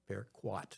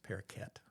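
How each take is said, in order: First: The word ends with a 'kwat' sound. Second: The word ends with a 'keet' sound. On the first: "would be what it would look like" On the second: "That's the way I've always pronounced it"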